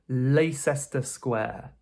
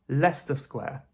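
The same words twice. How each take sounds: First: Leicester is said with three syllables. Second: Leicester is said with two syllables. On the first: The speaker calls it wrong. "No, that can't be right" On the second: The speaker calls it right. "we remove that middle syllable. So this is simply pronounced Leicester Square"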